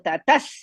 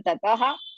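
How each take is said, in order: First: The word ends in an s sound. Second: The word ends in a breathy ha sound. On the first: The speaker calls it right. "next letter is Sa. So tathas" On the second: The speaker calls it wrong. "to remove the uh, Risva from the after tataha"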